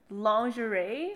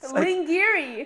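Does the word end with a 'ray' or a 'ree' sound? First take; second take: ray; ree. First: The word ends with a 'ray' sound. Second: The word ends with a 'ree' sound. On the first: "I heard people say lingerie" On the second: "I pronounce this shit lingiri"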